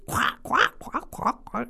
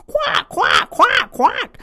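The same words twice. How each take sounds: First: High quacking that fades away to nothing; terrible bird noise. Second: Loud high squawking quack quack; terrible bird noise. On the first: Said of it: "And he made a terrible noise". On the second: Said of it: "he heard a terrible noise". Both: Acted.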